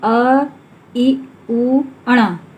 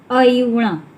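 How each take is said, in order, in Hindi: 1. हर ध्वनि रुक-रुक कर अलग-अलग बोली जाती है। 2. ध्वनियाँ बिना रुके जल्दी-जल्दी एक साथ जुड़ जाती हैं। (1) "ऐसे नहीं पढ़ेंगे" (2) "शीघ्रता से इसको हम ऐसे पढ़ेंगे"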